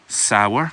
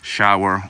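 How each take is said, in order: First: The word starts with a plain s sound. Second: The word starts with an sh sound.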